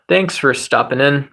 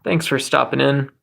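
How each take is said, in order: Both takes have the same delivery.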